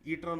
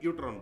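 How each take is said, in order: First: The word begins with an 'ee' sound. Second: The word begins with a 'yoo' sound. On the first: The speaker calls it wrong. "ईट्रॉन नहीं बोलना है" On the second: The speaker calls it right. "यूट्रॉन बोलना है"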